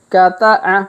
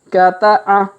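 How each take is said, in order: Both takes have the same delivery.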